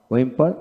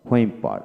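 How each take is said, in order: First: ওয়েম্পার with plain w, rising; British pronunciation. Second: হোয়েম্পার with h onset, falling; American pronunciation. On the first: Teacher drilling wh words, British pronunciation. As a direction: say ওয়েম্পার without any h. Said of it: "British উচ্চারণে". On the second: Teacher drilling wh words, American pronunciation. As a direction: say হোয়েম্পার leading with h. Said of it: "এবং আমেরিকানে হ". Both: Shown as a demonstration.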